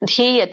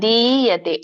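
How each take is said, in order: First: The first consonant is aspirated, with a breath. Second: The first consonant is unaspirated, without a breath. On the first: The speaker calls it wrong. "ಅಲ್ಲ" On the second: The speaker calls it right. "ಸಣ್ಣ ದಿ ಇದೆ, ಅಲ್ಪ ಪ್ರಾಣ"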